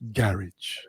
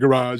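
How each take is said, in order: First: It is said the British way. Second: It is said the American way. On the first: "in the U K, it's garage" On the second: "we're used to saying garage"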